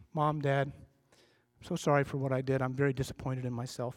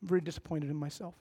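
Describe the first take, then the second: First: Low, subdued apology to parents; lightly voiced kid owning up, head down; softly acted remorse, pitched down; contrite kid. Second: Small, quick, hushed confession with a slight quiver; mock-contrite kid, softly rushing the words; lightly acted quivering apology, much quieter; little quiver. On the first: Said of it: "the kid comes to his parents and he or she says this". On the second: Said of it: "a little quiver".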